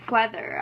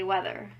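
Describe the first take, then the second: First: The w starts with a breathy h sound. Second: The w has no breathy h sound. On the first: The speaker calls it right. "instead of saying" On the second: The speaker calls it wrong. "I say"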